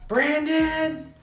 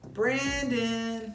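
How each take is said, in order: First: The name is said sternly, like a scolding. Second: The name is said sweetly and gently.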